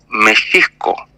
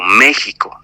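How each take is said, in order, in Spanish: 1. La x suena como 'sh'. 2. La x no suena como 'sh'. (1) "Pero en realidad es México" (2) "si tú lo lees, se lee como México"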